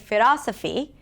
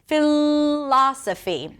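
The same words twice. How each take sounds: First: The L is a quick tap, like an R. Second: The L is held long before release. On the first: The speaker calls it wrong. "if you tend to say" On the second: The speaker calls it right. "glue the tongue to the upper palate"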